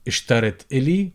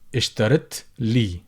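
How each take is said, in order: First: The vowel before 'l' is kept. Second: The vowel before 'l' is dropped. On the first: "would become" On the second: "would become"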